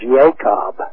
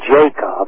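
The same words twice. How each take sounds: First: The name begins with a Y sound. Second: The name begins with a J sound. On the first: The speaker calls it right. "it was Jacob" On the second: The speaker calls it wrong. "It wasn't Jacob"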